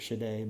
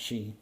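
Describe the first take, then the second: First: The word is said with a d sound. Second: The word is said without a d sound. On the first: The speaker calls it wrong. "It looks like it's Shide" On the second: The speaker calls it right. "it's pronounced Shi"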